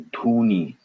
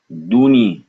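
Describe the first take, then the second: First: Dhuni with a puff after the d; aspirated dh. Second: Duni with a plain airless d; unaspirated d. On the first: Teacher giving the word for smoke, aspirated dh in Dhuni. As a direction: breathe through the dh of Dhuni. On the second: Teacher giving the word for double, unaspirated d in Duni. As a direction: keep breath out of the d in Duni. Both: Shown as a demonstration. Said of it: "the power of aspiration".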